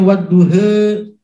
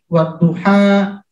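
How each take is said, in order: First: The final vowel is an e sound. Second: The final vowel is an open a sound.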